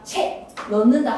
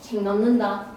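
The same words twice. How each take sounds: First: 책 ends in a plain k sound. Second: 책 ends in a nasal ng sound. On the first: The speaker calls it wrong. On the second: The speaker calls it right.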